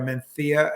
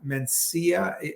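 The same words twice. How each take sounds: First: It is said with the local Spanish pronunciation. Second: It is said with a non-local pronunciation.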